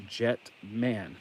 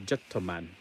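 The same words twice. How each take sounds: First: Said in the usual way. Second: Jettoman with an extra "o" after "Jet"; extra syllable. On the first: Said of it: "it's spelled". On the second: Shown as a demonstration. Showing viewers the Japanese pronunciation, Jettoman with an added vowel. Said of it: "but it's pronounced Jettoman".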